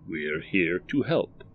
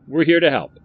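First: Slow, measured stranger; the stranger reads the shop sign slowly; stranger reading sign. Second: Louder, higher proud motto; the shopkeeper proudly recites his motto, louder and higher; Barry proudly repeating. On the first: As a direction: read the sign out slowly and evenly. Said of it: "said the man". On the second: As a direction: belt out the motto like a salesman. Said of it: "said Barry". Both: Acted.

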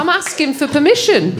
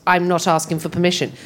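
First: High, lilting "permission" as if it were a question; upward questioning inflection. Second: A plain statement, dropping flat on "permission"; flat falling ending. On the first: Showing Brummie speech as asking, "permission" lilts high. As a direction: pitch "permission" up, seeking approval. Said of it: "accent that has an upward inflection". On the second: Explaining BBC English, "permission" falls flat like a statement. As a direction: let "permission" go down at the end, never a question. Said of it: "very flat at the end". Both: Shown as a demonstration.

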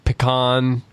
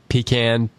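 First: "pecan" as puh-KAHN, with an ah. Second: "pecan" as pee-can, like a tin can. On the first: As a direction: reduce the first vowel of "pecan", end on "kahn". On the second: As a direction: say "pecan" with a long ee and a flat-a ending. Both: Shown as a demonstration. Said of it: "Tim, do you say".

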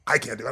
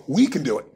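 First: "I" set apart at a lower pitch; stress on I. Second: "We" punched louder; stress on WE. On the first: Admitting nobody does it alone, stress on "I". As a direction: drop down and lean on "I". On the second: Urging shared effort against going it alone, stress on "We". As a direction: lean hard on "We" as the answer. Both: Real, not acted. Contrasts I with we.

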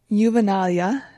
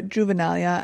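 First: Juvenalia with a Y sound at the start; soft-J pronunciation. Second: Juvenalia with an English J at the start; hard-J pronunciation. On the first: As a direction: open Juvenalia like "you". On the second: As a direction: open Juvenalia like "June". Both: Shown as a demonstration. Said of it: "not sure which one is the correct pronunciation".

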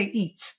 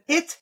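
First: "eat" with a long ee replacing the short i; vowel distortion. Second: Said in the usual way. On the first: Shown as a demonstration. Therapist showing a child's error, ee vowel in "eat". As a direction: stretch the neutral vowel into "eat". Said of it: "they say eat". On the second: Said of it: "Instead of it".

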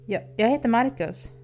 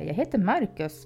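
First: Higher, stammering nervous introduction. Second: Steadier, calmer reply; somewhat calmer. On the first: Babysitter nervously introduces himself to the creepy teen, stammering. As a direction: stumble over the first word, scared. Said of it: "stammade jag fram". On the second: Babysitter corrects the teen's name for him, somewhat calmer. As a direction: settle the voice, a bit more composed. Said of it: "svarade jag något lugnare". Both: A narrator's reading.

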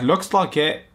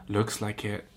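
First: Higher, louder send-up of the reply; exaggerated mocking read; mock character reply. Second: Said in the usual way. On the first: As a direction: ham up the line, pitched up.

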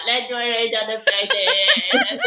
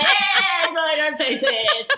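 First: Put-on slow, laughing drunken suggestion; drunken giggle. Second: High, loud laughing shout; drunken cheer. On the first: Tipsy friend in the pub suggesting face drawing, laughing slowly. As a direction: drag it out through giggles. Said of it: "We were like". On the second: Retold or imitated. Drunk mates cheering the face-drawing plan, shouting and laughing. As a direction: whoop it out in drunken glee.

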